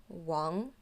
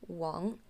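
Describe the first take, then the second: The two takes are said the same way.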